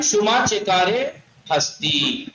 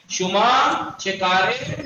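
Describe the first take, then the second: First: Said in the usual way. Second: Slow model phrase. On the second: Shown as a demonstration. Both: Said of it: "تو کیا کہتے ہیں ہم؟".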